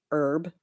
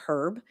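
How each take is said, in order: First: Herb with the H dropped, like "erb"; silent H. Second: Herb with the H pronounced; sounded H. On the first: She quotes the word people correct her on, silent H. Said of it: "dropping the H on herb". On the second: Quoting people in the UK, herb with H sounded. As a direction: say herb with an audible H at the front. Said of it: "where they pronounce the H". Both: Shown as a demonstration.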